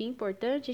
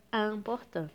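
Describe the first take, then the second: First: Said in the usual way. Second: "important" as an-por-tan, nasal vowels, silent T; French pronunciation. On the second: Shown as a demonstration. Teacher contrasting it with Portuguese importante, French nasal "important". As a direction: start "important" on nasal "an", drop the final T. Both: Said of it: "a gente lê como se fosse".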